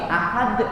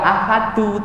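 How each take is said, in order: First: The word ends on a bare 'd' consonant. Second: The word ends with a final 'u' vowel. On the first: The speaker calls it right. "tapi ahad" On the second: The speaker calls it wrong. "kok enggak ahadu"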